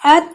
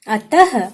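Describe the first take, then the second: First: It ends without a final breathy h sound. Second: It ends with a final breathy h sound. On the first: "अतः यहाँ पहले क्या लिखा था?" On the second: "तो मैंने आहा की मात्रा लगाई ... तो इसका उच्चारण क्या हो गया?"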